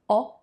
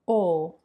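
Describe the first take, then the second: First: The vowel is open, with the mouth wider. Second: The vowel is closed, with the mouth narrower.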